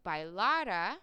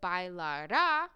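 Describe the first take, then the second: First: The final syllable carries no stress. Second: The final syllable carries the stress. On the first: It is the past subjunctive form. "Without the accent" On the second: He or she will dance. "if this had an accent, would be the future tense"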